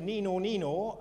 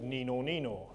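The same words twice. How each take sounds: First: The siren sound is at a higher pitch. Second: The siren sound is at a lower pitch.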